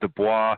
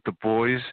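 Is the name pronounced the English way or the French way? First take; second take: French; English. First: The name is pronounced the French way. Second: The name is pronounced the English way.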